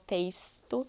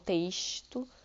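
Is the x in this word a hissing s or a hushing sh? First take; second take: hissing s; hushing sh. First: The x is said as a hissing s sound. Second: The x is said as a hushing sh sound. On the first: This is how people in other places say it. "se a gente vai para outros lugares do Rio de Janeiro, a gente consegue perceber que as pessoas falam texto" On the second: This is how people here in Rio say it. "e não texto, tá? Igual a gente fala aqui"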